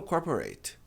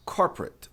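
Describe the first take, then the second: First: Corporate said as corporeit; wrong pronunciation. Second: Corporate ending it; correct pronunciation. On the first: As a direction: say corporate with an eit ending. (corporate com final eit) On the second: (corporate com final it) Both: Shown as a demonstration. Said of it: "mas não corporate".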